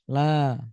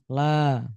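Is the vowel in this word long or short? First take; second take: long; long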